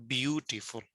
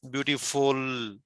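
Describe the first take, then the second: First: "beautiful" stressed on BEAU, the rest light; BEAU-tiful, front-stressed; stress on first syllable. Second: "beautiful" slowly, weight dragged onto FUL; beauti-FUUL, drawn out at the end; wrong stress on ending. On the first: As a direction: put the weight at the start of "beautiful". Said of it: "start part". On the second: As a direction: stretch the last syllable of "beautiful". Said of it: "if we cannot say". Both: Shown as a demonstration.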